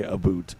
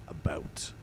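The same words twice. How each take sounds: First: "a boot" with an ooh vowel; Canadian "about". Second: Soft, careful "about" with a clear ow; over-enunciated. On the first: Streamer shows what he avoids saying, "a boot" with an ooh. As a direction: give "a boot" the mocked Canadian oo. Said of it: "I don't say a boot". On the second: Streamer shows his careful way, "about" softly over-enunciated. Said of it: "I over enunciate it". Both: Shown as a demonstration.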